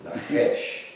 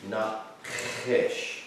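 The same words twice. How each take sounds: First: Nachesh with the ch rasped like clearing the throat; guttural Nachesh. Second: Nachesh with a throaty ch, said softly; soft, throaty Nachesh as a demo; guttural Nachesh. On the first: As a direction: breathe Nachesh, scraping the ch at the back of the throat. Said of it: "it's like clearing your throat". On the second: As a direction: say Nachesh with the ch scraped from the back of the throat. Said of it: "Kind of have to do it". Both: Shown as a demonstration.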